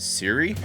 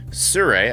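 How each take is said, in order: First: The name sounds like 'Siri', two syllables. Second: The name sounds like 'Sir-oo-ee', three syllables. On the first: The speaker calls it wrong. "I always called it Siri" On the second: The speaker calls it right. "is the way you pronounce it"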